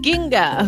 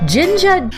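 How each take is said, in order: First: The name begins with a hard G sound. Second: The name begins with a soft J sound. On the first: The speaker calls it right. "it's Ginga" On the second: The speaker calls it wrong. "I was saying it wrong"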